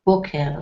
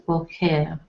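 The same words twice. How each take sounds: First: "boker" with the stress on the first syllable, BO. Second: "boker" with the stress on the second syllable, KER. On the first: Teacher shows how "boker" is stressed for morning. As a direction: say BO-ker, putting the weight on "bo". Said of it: "the emphasis is on bo". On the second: Teacher shows how "boker" is stressed for visit. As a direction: say bo-KER, putting the weight on "ker". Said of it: "But the emphasis is more on the second". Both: Shown as a demonstration.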